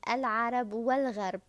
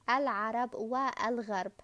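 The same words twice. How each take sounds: First: The second article joins smoothly to the preceding wa. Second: A separate glottal stop starts the second article. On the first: The speaker calls it right. "The correct way to read it" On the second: The speaker calls it wrong. "this is wrong"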